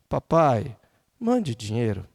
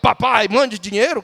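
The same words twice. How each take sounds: First: It sounds like a soft, pleading request. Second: It sounds like a bossy, demanding order. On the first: The son is humbly asking for help. The speaker calls it right. "ele está dizendo assim" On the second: The son is ordering his father around. The speaker calls it wrong. "ainda exige que"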